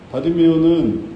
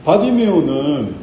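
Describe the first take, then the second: No difference in how they are said.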